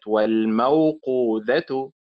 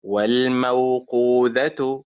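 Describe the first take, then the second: First: Slow والموقوذة, stressed on مو; wrong early stress. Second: Slow والموقوذة, stressed on قو; stress on middle syllable. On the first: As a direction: punch مو in والموقوذة, drawn out. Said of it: "وليست والموقوذة". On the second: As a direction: lean on قو in والموقوذة, drawn out. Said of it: "إذن تنطق موقو فعل". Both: Shown as a demonstration.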